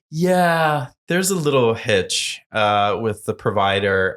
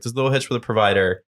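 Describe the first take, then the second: First: Stalling admission. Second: Said in the usual way. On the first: Retold or imitated. Founder admitting a glitch to organizer, imitated stalling. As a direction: break bad news slowly, stretching the words.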